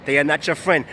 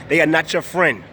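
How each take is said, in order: Both takes have the same delivery.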